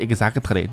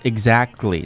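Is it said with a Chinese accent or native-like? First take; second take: Chinese accent; native-like. First: It is said with a Chinese-English accent. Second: It is said with a native-like accent.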